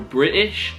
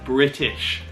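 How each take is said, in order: First: The middle T is mostly dropped. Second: The middle T is a clear T. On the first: "the T gets dropped a bit" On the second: "In the U K, this stays as a T"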